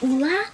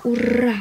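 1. Средний согласный — звук Л. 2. Средний согласный — звук Р. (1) "Не ула" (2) "а ура"

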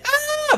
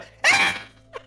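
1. Крик чистый, без надрыва и хрипа. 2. В крике есть надрыв и хрип, высокое качество.

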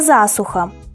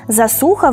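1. Ударение падает на литературный слог. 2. Ударение падает на диалектный, нелитературный слог. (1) "вместо" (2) "местный говор ... переставляет местами ударение"

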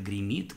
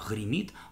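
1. Первое «г» — твёрдый взрывной звук. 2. Первое «г» — придыхательный фрикативный звук. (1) "Для северного наречия характерно «г» взрывное" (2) "где мы услышим «г» фрикативное"

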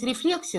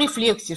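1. Ударение стоит на нормативном слоге. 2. Ударение падает на сдвинутый, нестандартный слог. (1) "Правильно говорить рефлексия" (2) "я так привыкла, что делаю уже другое ударение"

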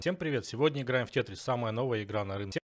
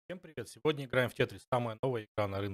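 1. Голос слышен без каких-либо пропаданий. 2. Местами голос пропадает. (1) "мы настраиваем таким образом трешхолд, чтобы у нас постоянно голос был, и он не резался" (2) "у меня сразу же голос стал теряться, потому что как бы недостаточно громкий звук, и гейт его просто режет"

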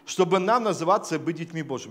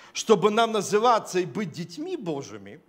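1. Голос понижается в конце, завершая предложение. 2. Голос повышается в конце, оставляя фразу незаконченной. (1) "Ничего не изменил" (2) "А если немножко как бы сделать интонацию по-другому, сказать"

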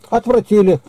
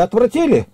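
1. Ровная повествовательная интонация. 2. Вопросительная интонация.

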